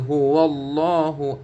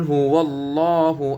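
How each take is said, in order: Both takes have the same delivery.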